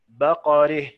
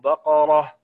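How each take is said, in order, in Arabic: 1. الحركة الأخيرة تميل نحو e. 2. الحركة الأخيرة مفتوحة، مثل a. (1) "الإمالة" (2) "لما فتحنا"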